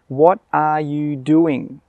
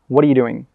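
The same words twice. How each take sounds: First: Each word is said separately and clearly. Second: The words are said fast and run together. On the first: "This is correct. The pronunciation is correct" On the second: "he'll say it really fast and it will sound like this"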